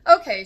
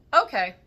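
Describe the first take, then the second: First: Louder, higher okay, taken aback; a raised, surprised okay; wide-eyed okay. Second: Short, louder okay that sounds anything but okay; an okay that is clearly not okay; unconvinced okay. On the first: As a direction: repeat okay as if eyes are widening. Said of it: "her eyes widening". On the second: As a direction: say okay without meaning it. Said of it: "She sounded anything but okay". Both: A narrator's reading.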